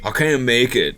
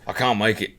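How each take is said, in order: First: It is said in a plain accent. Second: It is said in an Irish accent.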